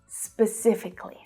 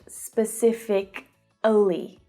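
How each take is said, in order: First: The syllable before the ending is dropped. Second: The syllable before the ending is fully pronounced. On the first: The speaker calls it right. "we don't pronounce the syllable before the ly" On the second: The speaker calls it wrong. "It's not specifically"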